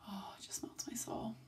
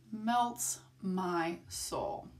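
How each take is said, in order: First: Whispered, melting over the dog; soft gush. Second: Very slow, savoured melts my soul; drawn-out repeat. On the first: Vlogger gushing about her puppy's cuddles, whispered. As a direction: breathe it out in a whisper. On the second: Vlogger repeating her gush about the puppy, very slow. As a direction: stretch every word out slowly. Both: Real, not acted.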